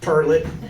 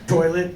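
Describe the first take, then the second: First: The word sounds like tur-let. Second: The word sounds like toy-let.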